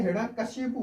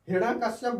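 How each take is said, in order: First: हिरण्यकशिपु ending in "-shipu"; correct ending. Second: हिरण्यकश्यप ending in "-kashyap"; wrong ending. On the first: Teacher giving the right name, हिरण्यकशिपु ending in "-pu". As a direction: say हिरण्यकशिपु closing on a u. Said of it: "हिरण्यकशिपु होता है". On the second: Teacher rejecting the name, हिरण्यकश्यप ending in "-shyap". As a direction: say हिरण्यकश्यप closing on a p. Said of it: "हिरण्यकश्यप गलत होता है". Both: Shown as a demonstration.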